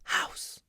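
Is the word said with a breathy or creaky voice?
breathy. The word is said with a breathy voice. "You can use breath"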